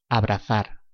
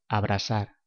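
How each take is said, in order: First: The z is said like English th. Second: The z is said like English s.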